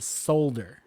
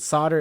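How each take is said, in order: First: It is pronounced the British way. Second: It is pronounced the American way. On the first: "but in Britain they pronounce it solder" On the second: "We pronounce it solder in the States"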